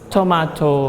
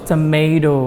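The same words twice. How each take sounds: First: It is said in a British accent. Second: It is said in an American accent. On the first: "sedangkan kalau yang kanan adalah tomato" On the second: "yang sebelah kiri kalian di sini ada satu tomat ya yang memegang bendera Amerika"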